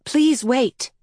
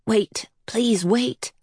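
First: Higher-pitched, voiced child's plea; spoken plea. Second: Slow, whispered pleading; silent inner plea. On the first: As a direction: plead aloud in a higher voice. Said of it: "This time she spoke". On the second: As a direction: whisper it like a thought held in the mind. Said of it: "kept saying in her mind". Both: A narrator's reading.

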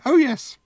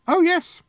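First: Put-on very high, chirpy little-old-lady voice; tiny booth lady chirping it once more; piped cheerily. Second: Put-on very high, chirpy little-old-lady voice; tiny booth lady chirping a happy yes; piped cheerily. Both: A narrator's reading. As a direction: pipe it up bright and cheery. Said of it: "she piped cheerily".

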